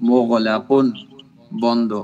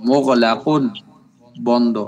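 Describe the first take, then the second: The two takes are said the same way.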